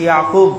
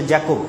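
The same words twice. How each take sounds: First: Yakub, the Muslim form of Jacob; Arabic-style Yakub. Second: Jacob, the other community's form; English-style Jacob. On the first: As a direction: say Yakub with an opening y. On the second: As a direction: say Jacob with an opening j. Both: Shown as a demonstration. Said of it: "এইরকম কিছু উচ্চারণগত পার্থক্য".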